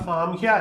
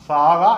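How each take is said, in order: First: The name ends in a 'kya' sound. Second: The name ends in a plain 'ka' sound. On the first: The speaker calls it right. "എന്നാണ് ശരിക്കുമുള്ള അതിന്റെ ഉച്ചാരണം" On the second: The speaker calls it wrong. "എന്നല്ല"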